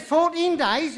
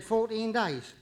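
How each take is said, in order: First: Loud, high outraged disbelief; acted indignant outburst, pitched right up; incredulous protest. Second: Judge handing down a sentence; magistrate's plain ruling; matter-of-fact sentencing. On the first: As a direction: throw the sentence back in shock. Defendant protests the harsher sentence. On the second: Acted. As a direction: pronounce the sentence firmly, without fuss. Judge passes sentence in joke.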